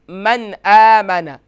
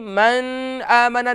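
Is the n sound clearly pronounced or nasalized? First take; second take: clear; nasalized. First: The n is pronounced clearly without nasal hold. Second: The n is nasalized and held through the nose. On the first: The speaker calls it right. "बल्कि मन आमना" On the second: The speaker calls it wrong. "मन आमना नहीं पढ़ेंगे"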